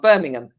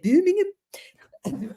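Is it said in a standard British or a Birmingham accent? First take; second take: standard British; Birmingham. First: It is said in a standard British accent. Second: It is said in a Birmingham accent.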